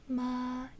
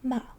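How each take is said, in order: First: The pitch stays level throughout. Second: The pitch falls all the way down. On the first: "here we have a flat tone" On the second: "it goes all the way down with your pitch"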